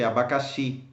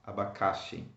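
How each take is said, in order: First: The stress is on the last syllable. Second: The stress is on the second-to-last syllable. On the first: The speaker calls it right. "this is why you say abacaxi" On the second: The speaker calls it wrong. "and not abacaxi"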